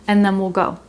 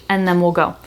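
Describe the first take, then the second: No difference in how they are said.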